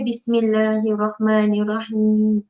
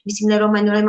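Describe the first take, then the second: First: It is said slowly. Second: It is said fast.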